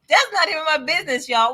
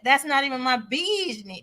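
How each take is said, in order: First: It is said in a Memphis accent. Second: It is said in the speaker's plain voice.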